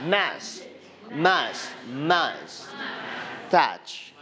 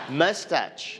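First: Mustache split apart as "Mas-, mas-, mas-, touch", first syllable repeated. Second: Said in the usual way. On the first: Shown as a demonstration. Teacher breaking mustache into syllables for the class. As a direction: sound out "Mas-" three times, then land on "touch". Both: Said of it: "Everybody say mustache".

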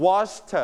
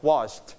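First: "washed" with a strongly released "tuh" ending; exaggerated final t. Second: "washed" in one syllable, t barely released; softened final t. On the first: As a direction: make the t in "washed" its own audible syllable. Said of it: "we pronounce เธอ". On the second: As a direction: turn down the ending of "washed" to a bare t. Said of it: "volume down ลดเสียงเธอมาเบาๆ". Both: Shown as a demonstration.

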